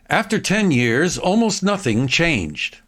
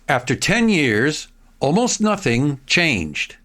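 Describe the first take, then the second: First: The sentence is read at a faster pace. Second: The sentence is read at a slower pace.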